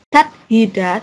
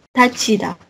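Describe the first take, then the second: First: The middle consonant is an aspirated t sound. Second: The middle consonant is an aspirated ch sound. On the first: The speaker calls it wrong. "bukan tathida" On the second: The speaker calls it right. "tapi tachida"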